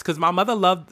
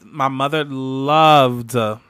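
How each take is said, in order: First: Said in the usual way. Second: Choking up. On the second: Real, not acted. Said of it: "oh, let me get emotional".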